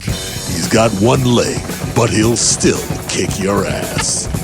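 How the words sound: It is said in a dramatic movie-trailer voice.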